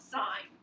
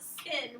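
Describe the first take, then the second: First: The word rhymes with 'pine'. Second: The word rhymes with 'pin'. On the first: The speaker calls it right. "we call it sine" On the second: The speaker calls it wrong. "we don't call it sin"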